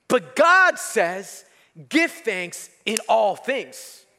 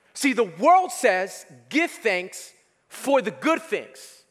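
First: Slow, deliberate weight on "in all"; stress on IN ALL. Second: "for the good things" said slowly; slow and deliberate on "for"; stress on FOR. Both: Shown as a demonstration. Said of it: "Notice the difference there?".

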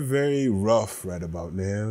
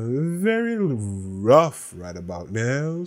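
First: Said in the usual way. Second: Slow, drawn-out repeat, Very leaned on; dragged-out rueful echo; slow emphatic repeat. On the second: Shown as a demonstration. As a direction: say it again slowly to let it sink in.

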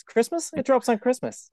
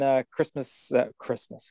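First: High, rising "Christmas?"; shocked high rise on "Christmas?"; surprised question. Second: Said in the usual way. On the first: Real, not acted. Doubting the date.

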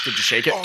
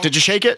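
First: Said in the usual way. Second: Did you shake it? asked higher, louder, rising; insistent repeat. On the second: Real, not acted. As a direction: press the question Did you shake it? hard. Repeats the question, pressing.

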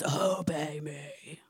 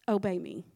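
First: Much lower, very slow, a big voice from the clouds; slow deep divine command "Obey me"; booming voice of God. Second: Gentle low "Obey me"; soft voice of the Lord. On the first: Acted. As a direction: drag it out low like thunder behind it. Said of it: "all at once the Lord says". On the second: Retold or imitated. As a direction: lower and softer, a quiet command. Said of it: "the voice of the Lord says".

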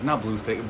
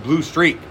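First: Said in the usual way. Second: "Streak" higher in pitch; stress on Streak. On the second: Real, not acted. Correcting own movie title to co-host, stress on "Streak".

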